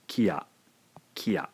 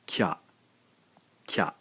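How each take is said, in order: First: "kiya" with ki and ya kept apart, two beats; two-syllable word. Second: "kya" as one quick syllable, the i gone; one blended syllable. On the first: Teacher showing the unblended word to learners, two beats. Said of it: "therefore this is a two-syllable word". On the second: Teacher showing learners the blended single syllable. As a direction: glide k straight into ya in "kya". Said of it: "we have a single syllable now". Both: Shown as a demonstration.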